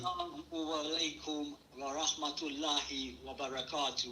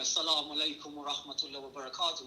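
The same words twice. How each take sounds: First: It is said slowly and loudly. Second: It is said at normal conversational speed.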